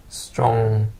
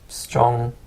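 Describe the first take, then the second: No difference in how they are said.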